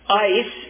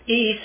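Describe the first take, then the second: First: The word sounds like English 'ice'. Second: The word sounds like 'ay-ees', two vowels. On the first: This is the form often heard. "Ice is the way you'll often hear it translated" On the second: This is the form a native Greek speaker uses. "Eis is what the Greek native tells me is how they would pronounce it"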